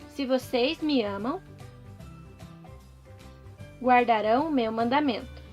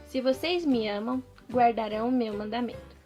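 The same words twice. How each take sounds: First: It is said slowly. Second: It is said at normal speed.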